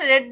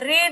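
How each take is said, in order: First: The word is said with a short e vowel. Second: The word is said with a long ee vowel. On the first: This is the past-tense form. The speaker calls it right. "read ன்னு சொல்லணும் verb to" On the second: This is the present-tense form. The speaker calls it wrong. "read ன்னு சொல்லாம"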